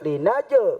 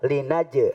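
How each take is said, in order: First: The j sound has a heavy, exaggerated bounce. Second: The j sound has a light, small bounce. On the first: The speaker calls it wrong. "Jangan sampai linaje, nggak perlu" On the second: The speaker calls it right. "dibacanya tipis-tipis"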